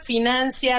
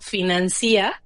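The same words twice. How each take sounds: First: The stress falls on the 'nan' syllable. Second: The stress falls on the 'ci' syllable. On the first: The speaker calls it right. "se mantienen como palabras graves" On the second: The speaker calls it wrong. "si fuera correcto, financia, el hiato estaría en la I"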